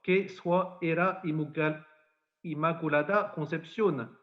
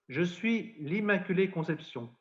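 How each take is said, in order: First: Lourdes patois, measured and solemn. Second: Said in the usual way. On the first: Acted. Priest quoting the Lady's words to Bernadette, in Lourdes patois. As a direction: quote it in the old Lourdes patois. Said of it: "alors dans le patois".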